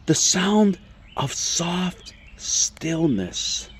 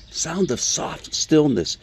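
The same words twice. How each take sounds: First: Very slow, whispery and drawn out; hushed whisper. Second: Slow repeat with less hush; savouring repeat. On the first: Preacher sharing the Hebrew wording, slow reverent whisper. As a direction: breathe it out word by word into stillness. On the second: Preacher asking how listeners like it, slow savouring repeat. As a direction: say it slowly, relishing the phrase. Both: Acted.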